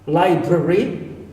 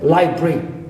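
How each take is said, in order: First: All three syllables are said in full. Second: It is said quickly with a syllable dropped.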